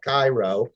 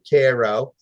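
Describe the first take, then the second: First: It is said the familiar, expected way. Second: It is said the local, unexpected way. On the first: This is how outsiders would expect it. "looks an awful like it should be called Cairo" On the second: This is how the town's own people say it. "they call it Cairo"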